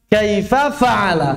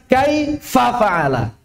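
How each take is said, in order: First: The stress falls on fa'ala. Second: The stress falls on kaifa. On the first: The speaker calls it right. "nabernya itu di fa, fa'ala, bukan kaifa" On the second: The speaker calls it wrong.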